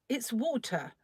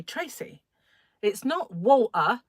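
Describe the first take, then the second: First: "water" with the t clearly sounded, pitched higher; mother's proper version. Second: "water" mimicked with the t dropped, drawn out; mother's correction. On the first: Retold or imitated. Mother correcting Tracy, proper "water" with its t. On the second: Mother correcting Tracy, mocking "water" without its t. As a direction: scold gently, saying "water" as a slow wa'er. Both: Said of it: "when my mother used to say".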